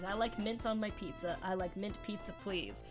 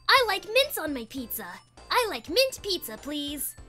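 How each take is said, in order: First: It is read in the speaker's normal voice. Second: It is said in the speaker's Tails voice.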